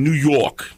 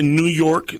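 First: New York accent on "New York", clipped to "u jok" with the r dropped; New Yorker saying "New York" with a dropped r. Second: Said in the usual way. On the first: Shown as a demonstration. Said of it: "dicen New York". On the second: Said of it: "En vez de New York".

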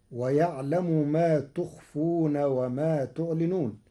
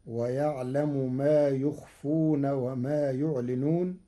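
First: Said in the usual way. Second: "يخفون" and "يعلنون" begin with y, not t; third-person ya. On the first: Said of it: "قرأ ورش ما تخفون". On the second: Shown as a demonstration. Sheikh demonstrates Warsh, "يخفون" and "يعلنون" opened on ya. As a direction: say "يخفون" as yukhfun, "يعلنون" as yu'linun. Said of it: "بياء الغيب في الفعلين".

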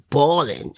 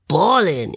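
First: Said in the usual way. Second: "bawling" stretched with a rise and fall in pitch; emphatic repetition. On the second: Real, not acted. Woman stressing how hard she cried, "bawling" said emphatically. Word repeated for emphasis after "I mean.

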